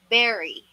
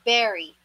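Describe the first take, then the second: First: The first vowel sounds like 'eh', as in 'berry'. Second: The same.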